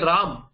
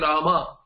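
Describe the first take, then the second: First: The word ends without any final vowel. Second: The word ends with a clear final vowel. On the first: This is the North Indian way of saying it. "In north, the vowel itself is not heard. So you say Ram" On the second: This is the South Indian way of saying it. "In south you will say Rama"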